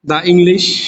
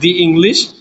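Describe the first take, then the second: First: The word 'the' has a short 'uh' vowel. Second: The word 'the' has a long 'ee' vowel. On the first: The speaker calls it wrong. "দা হবে" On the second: The speaker calls it right. "Hundred percent দি হবে"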